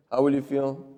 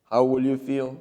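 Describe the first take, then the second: No difference in how they are said.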